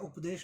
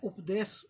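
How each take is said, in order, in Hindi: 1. शब्द का अंत 'sh' ध्वनि से होता है। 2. शब्द का अंत साधारण 's' ध्वनि से होता है। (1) "नहीं बोला" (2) "जानबूझकर बोला है ... पाली में श नहीं स चलता है"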